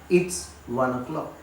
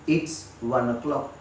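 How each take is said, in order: First: The words "it is" are contracted to "it's". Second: The words "it is" are contracted to "it's".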